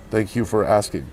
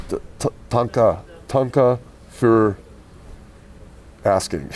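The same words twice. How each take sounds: First: Said in the usual way. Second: Caveman thanks. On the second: Pretend. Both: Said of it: "Oh, it's Ugbaga".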